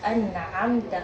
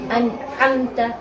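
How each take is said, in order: First: The ain is moderate, neither tight nor loose. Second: The ain is pressed too tightly. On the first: The speaker calls it right. "yang seharusnya itu memiliki sifat tawassut" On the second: The speaker calls it wrong. "itu terlalu kencang"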